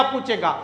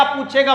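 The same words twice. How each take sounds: First: पूछेगा said much softer and dropping away; quiet repeat. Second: Said in the usual way. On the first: Shown as a demonstration. Teacher echoing पूछेगा to students, softly fading. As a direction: let पूछेगा fall away softly as an echo.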